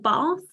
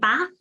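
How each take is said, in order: First: It is said with a southern English vowel. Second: It is said with a northern English vowel. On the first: "instead of" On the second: "people who come from up north ... say bath"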